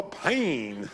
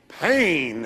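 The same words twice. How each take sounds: First: Drawn-out Southern "Pain", vowel stretched long and dropping; southern drawl. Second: Said in the usual way. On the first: Retold or imitated. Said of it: "in the southern drawl". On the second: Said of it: "as somebody said so nicely".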